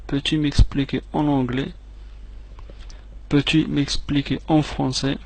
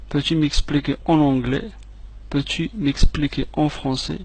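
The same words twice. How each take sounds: The two takes are said the same way.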